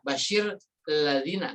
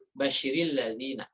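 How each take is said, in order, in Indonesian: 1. Kedua kata diucapkan terpisah, tanpa vokal penghubung. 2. Sebuah vokal tambahan menghubungkan kedua kata itu. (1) "nggak bisa" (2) "maka dia dihidupkan di sini"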